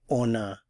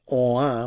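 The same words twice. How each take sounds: First: The N is pronounced, linking into the vowel. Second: The N is silent before the vowel. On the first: The speaker calls it right. "there's liaison, so we have to pronounce the N" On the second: The speaker calls it wrong. "instead of saying on a"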